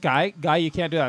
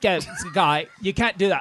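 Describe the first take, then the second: First: It is said in a plain American accent. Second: It is said in a put-on British accent.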